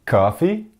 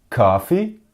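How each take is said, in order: No difference in how they are said.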